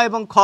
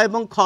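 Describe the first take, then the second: Both takes have the same delivery.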